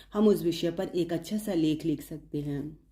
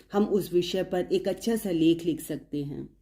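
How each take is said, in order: Both takes have the same delivery.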